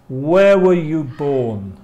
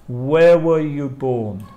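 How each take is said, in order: Both takes have the same delivery.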